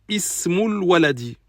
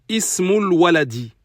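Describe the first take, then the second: The two takes are said the same way.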